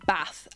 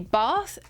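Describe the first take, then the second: First: The vowel is short, as in cat. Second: The vowel is long, as in father.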